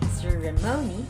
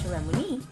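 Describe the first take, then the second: First: The stress is on the third syllable. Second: The stress is on the fourth syllable. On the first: "not also on the third" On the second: "not also on the fourth. That it will sound ceremony"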